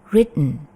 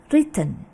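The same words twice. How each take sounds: First: The middle 't' is quick and barely heard. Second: The middle 't' is pronounced clearly. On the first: "mengucapkan T-nya dengan cepat sehingga tidak terlalu kedengeran" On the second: "T-nya mereka cukup jelas"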